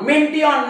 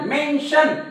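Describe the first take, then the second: First: The ending is said as tee-on. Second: The ending is said as shun. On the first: The speaker calls it wrong. "मेंटिऑन मेंटिऑन नाही" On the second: The speaker calls it right. "मेन्शन मेन्शन म्हणजे हा शब्द श"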